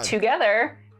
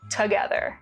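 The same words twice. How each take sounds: First: The first vowel is full and clear. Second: The first vowel is reduced and weak. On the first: "I say" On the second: "someone would reduce the vowel to"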